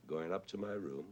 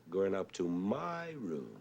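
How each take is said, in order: First: Said in the usual way. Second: Slow, with "my" held long and pitched high; stress on MY. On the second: Shown as a demonstration. Lecturer showing the composer's wrong accent, stress on "my". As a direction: drag out "my" so it towers over "room". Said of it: "that's a wrong accent".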